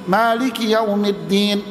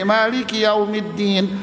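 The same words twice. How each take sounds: The two takes are said the same way.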